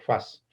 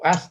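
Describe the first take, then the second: First: The word begins with an f sound. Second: The word begins directly with a vowel sound.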